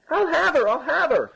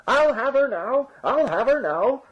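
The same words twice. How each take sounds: First: Very high-pitched insistent cry; frantic bawling. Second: High, slow, drawn-out cry; bawling. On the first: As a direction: cry out desperately from the sack. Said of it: "louder than ever". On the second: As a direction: wail it out from inside a sack. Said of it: "bawled the farmer from inside the sack". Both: A narrator's reading.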